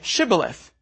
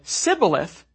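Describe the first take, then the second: First: The word begins with a 'sh' sound. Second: The word begins with an 's' sound. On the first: The speaker is not an Ephraimite. The speaker calls it right. "the phoneme sh in Shibboleth" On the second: The speaker is an Ephraimite. The speaker calls it wrong. "because he could not pronounce it"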